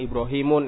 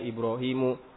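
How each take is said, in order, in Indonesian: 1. Kata ini diakhiri bunyi n tambahan. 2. Kata ini diakhiri vokal tanpa n. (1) "Ya, salah" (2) "Harusnya Ibrahimu"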